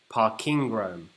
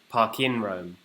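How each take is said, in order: First: The middle word ends with a g sound. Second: The middle word ends without a g sound. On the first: Parking, as in car parks, in Rome. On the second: A park located in Rome.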